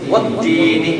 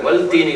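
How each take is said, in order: First: The l merges into a doubled t sound. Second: The l is clearly sounded before the t. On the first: The speaker calls it right. "வத்தீனி நேரம் வைக்கணும்" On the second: The speaker calls it wrong. "வல் தீனி கிடையாது"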